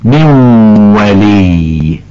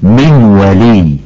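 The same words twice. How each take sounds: First: من ولي very slow with a long nasal hum into the w; with ghunna. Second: من ولي with no nasal hum, the n dropped straight into w; without ghunna. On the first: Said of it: "والصواب أن تقولي". (من ولي بغنة ممدودة) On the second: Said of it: "فقلت". (من ولي بلا غنة) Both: Shown as a demonstration.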